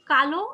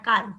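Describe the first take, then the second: First: KALO with a clear final "o"; final o sounded. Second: কাল as one syllable, "kal"; no final vowel. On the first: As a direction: say কালো as two syllables, ka-lo. (কালো, শেষে ও-ধ্বনি স্পষ্ট) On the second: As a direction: end কাল on the l, without an "o". (কাল, শেষে ও-ধ্বনি ছাড়া) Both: Shown as a demonstration. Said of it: "উচ্চারণের কারণে কিন্তু তুমি".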